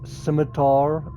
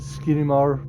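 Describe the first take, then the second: First: It is said with an 'm' and 't' sound. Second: It is said with an extra 'n' sound. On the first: The speaker calls it right. "That's apparently the right way to say it" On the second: The speaker calls it wrong. "I said Skinimar, so I was saying it wrong"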